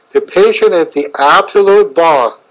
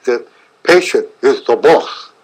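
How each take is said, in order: First: Said in the usual way. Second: Imitating a German doctor, z for th; thick German accent. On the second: Doctor Harmer's first words to his new colleague, in a German accent. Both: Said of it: "in a thick German accent".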